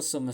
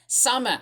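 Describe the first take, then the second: First: Summer with a British vowel, r dropped; summer said the Brummy British way; British-sounding summer. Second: Summer said the Australian way, as he normally says it. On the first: Real, not acted. Reading a weather headline aloud, British summer. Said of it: "Why am I saying summer as in, like, a Brummy voice or a British voice?". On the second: Shown as a demonstration. Correcting himself to viewers, Australian Summer. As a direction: give Summer his own Aussie sound. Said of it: "That's how I say it".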